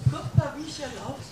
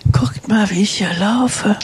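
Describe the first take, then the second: First: Faint and distant, much softer, a little quick; called out from across the room; far from the mic. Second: Said in the usual way. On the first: Real, not acted. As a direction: heard from far off, well away from the microphone. Calls out before reaching mic.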